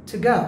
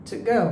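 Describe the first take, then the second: The two takes are said the same way.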